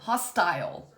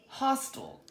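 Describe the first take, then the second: First: The last syllable has a long 'eye' vowel. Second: The last syllable has a weak 'uh' vowel. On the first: The speaker calls it wrong. "first we're going to take the long" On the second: The speaker calls it right. "Let's try it with the schwa"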